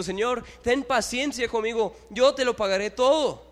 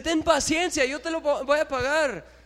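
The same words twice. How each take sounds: First: A touch of begging, higher and louder; lightly voiced servant asking for mercy; mild plea to his master; pleading servant. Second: Much higher, louder begging servant; hammed-up servant begging the king; desperate plea. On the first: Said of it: "le suplicaba diciendo". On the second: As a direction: cry out to the master for mercy. Servant begs the king again.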